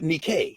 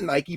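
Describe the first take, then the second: First: The name is said the Ancient Greek way. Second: The name is said the usual English way. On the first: The speaker calls it right. "but Nikkei anyway in Attic Greek" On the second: The speaker calls it wrong. "Nike is not Nike"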